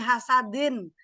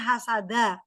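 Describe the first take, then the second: First: The word ends with an n sound. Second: The word ends with an open vowel. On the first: The speaker calls it wrong. "salah di hasadin" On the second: The speaker calls it right. "Harusnya hasada"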